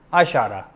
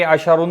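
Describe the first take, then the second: First: अशारा ending in an open "-a"; fixed zabar ending. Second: अशारुन ending in a nunated "-un"; wrong "-un" ending. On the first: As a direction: say अशारा with "ra" at the end, no n. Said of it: "मबनी हैं". (अशारा के आखिर में ज़बर) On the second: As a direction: say अशारुन with "run" at the end. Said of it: "अशारुन नहीं पढ़ेंगे". (अशारुन के आखिर में दो पेश) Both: Shown as a demonstration.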